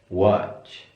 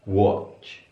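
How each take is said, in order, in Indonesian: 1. Kata ini diucapkan dengan vokal a terbuka ala Amerika. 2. Kata ini diucapkan dengan vokal o bulat ala Inggris. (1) "kalau di American akan dibaca A" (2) "kalau di British akan dibaca"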